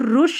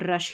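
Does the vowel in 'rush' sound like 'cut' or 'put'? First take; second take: put; cut. First: The vowel sounds like the one in 'put'. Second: The vowel sounds like the one in 'cut'. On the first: The speaker calls it wrong. "इसको रुश नहीं पढ़ना है" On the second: The speaker calls it right. "इसको रश ही पढ़ेंगे"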